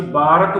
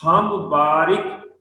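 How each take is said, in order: First: ਬਾਰਕ said as baa-rak, with no i; wrong way. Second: ਬਾਰਿਕ said slowly as baa-rik, with an i after ਰ; correct recitation. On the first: Teacher imitating how people say ਬਾਰਕ. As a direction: flatten it to ਬਾਰਕ. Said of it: "ਅਸੀਂ ਬਾਰਕ ਬੋਲ ਦਿੰਦੇ ਹਾਂ". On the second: Teacher reciting ਬਾਰਿਕ carefully for the congregation. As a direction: give ਬਾਰਿਕ its i sound, slowly. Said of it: "ਰਾਰੇ ਨੂੰ ਸਿਹਾਰੀ ਹੈ". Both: Shown as a demonstration.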